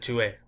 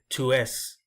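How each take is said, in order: First: The final S is silent. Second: The final S is pronounced. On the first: The speaker calls it right. "where I just really pronounced the E" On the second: The speaker calls it wrong. "I didn't say tu es"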